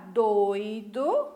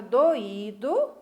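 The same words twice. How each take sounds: First: "doido" with o and i glided as oi; vowels in one syllable. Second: "doído" as do-Í-do, stress on the í; vowels in separate syllables. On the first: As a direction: stress the first syllable of "doido", oi together. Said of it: "na mesma sílaba". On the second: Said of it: "as duas vogais em sílabas diferentes". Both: Shown as a demonstration.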